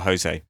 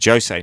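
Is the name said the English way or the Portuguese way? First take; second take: English; Portuguese. First: The name has an English pronunciation. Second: The name has a Portuguese pronunciation. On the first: The speaker calls it wrong. "not a Jose" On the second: The speaker calls it right. "because it's Portuguese. It's a Jose"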